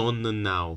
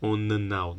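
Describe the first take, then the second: No difference in how they are said.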